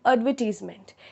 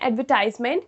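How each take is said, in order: First: It is said in a British accent. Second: It is said in an American accent. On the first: "British English में ... focus ... कम हो जाता है" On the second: "वो American English का pronunciation है"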